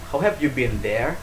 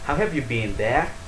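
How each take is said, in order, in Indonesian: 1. Vokal dalam been pendek. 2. Vokal dalam been panjang. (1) "Kalau mereka"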